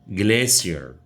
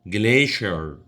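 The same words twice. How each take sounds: First: It is said with a British English pronunciation. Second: It is said with an American English pronunciation. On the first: "British English glacier" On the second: "American English يقولوها glacier"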